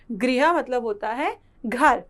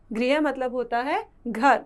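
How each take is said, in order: Both takes have the same delivery.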